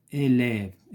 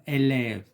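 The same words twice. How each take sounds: First: Said in the usual way. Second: "élève" with the mouth opened wide on the first è; open è sound. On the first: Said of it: "ما فاتحينش الفم بزاف". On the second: Shown as a demonstration. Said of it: "ما فاتحينش الفم بزاف، بينما élève". ("élève" prononcé avec un è bien ouvert)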